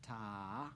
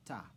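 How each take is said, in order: First: "Ta" drawn out over two beats; long sustained "Ta"; held half note. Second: "ta" said briefly, on one beat; one quick falling "ta"; short single beat. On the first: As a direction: stretch the vowel of "Ta" long, lifting at the end. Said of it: "Half note". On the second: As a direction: cut "ta" short with no held vowel. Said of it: "we end with a ta". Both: Shown as a demonstration.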